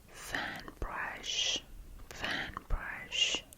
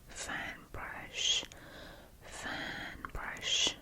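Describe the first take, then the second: No difference in how they are said.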